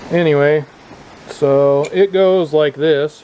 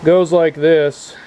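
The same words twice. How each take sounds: First: Raised voice outdoors, slowed; shouting over wind. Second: Louder, slow words against the wind; shouting over wind. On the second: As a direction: push the voice over wind noise. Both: Real, not acted. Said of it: "Hopefully you can hear me over this wind".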